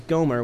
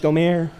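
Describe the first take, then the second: First: The name is said with a plain English pronunciation. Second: The name is said with a French-style pronunciation.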